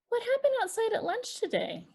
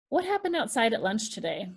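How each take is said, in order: First: The question is said lively with a lilt. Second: The question is said flat and harsh. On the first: The question invites a response. The speaker calls it right. "one is inviting a response" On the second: The question feels like an interrogation. The speaker calls it wrong. "that is a very flat affect"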